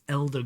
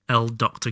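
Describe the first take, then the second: First: It is read as one two-syllable word, 'elder'. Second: It is read as the letter L plus 'doctor'. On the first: The speaker calls it right. "it's Elder" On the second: The speaker calls it wrong. "Not L Doctor"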